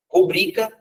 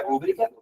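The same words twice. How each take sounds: First: "Rubrica" stressed on BRI; pronúncia correta. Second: "rúbrica" stressed on RÚ; pronúncia errada. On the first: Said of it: "não, não é rúbrica". ("Rubrica" com a tônica no BRI) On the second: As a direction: show the mistaken first-syllable stress in "rúbrica". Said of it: "não é rúbrica". ("rúbrica" com a tônica errada no RÚ) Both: Shown as a demonstration.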